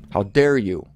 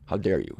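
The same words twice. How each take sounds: First: How dare you said as a firm rebuke; indignant challenge. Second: How dare you dropped low and soft; hushed repeat. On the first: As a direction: rebuke the listener boldly. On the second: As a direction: let the rebuke sink in quietly. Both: Acted.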